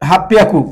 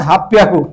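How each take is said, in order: No difference in how they are said.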